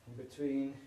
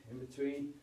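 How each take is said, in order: Both takes have the same delivery.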